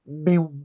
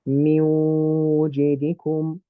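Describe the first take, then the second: First: The sound is blocked with no nasal resonance. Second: The sound resonates clearly through the nose. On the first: The speaker calls it wrong. "simulate having a cold, blocked nose" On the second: The speaker calls it right. "I'm still going to make the sound of the vibration from my nose"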